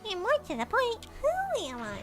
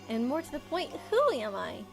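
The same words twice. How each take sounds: First: It is said in a little dog's voice. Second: It is said in his normal voice.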